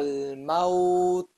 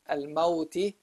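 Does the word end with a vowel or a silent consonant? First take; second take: silent consonant; vowel. First: The word ends on a silent consonant. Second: The word ends with a short i vowel. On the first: The reader stops on this word. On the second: The reading continues past this word.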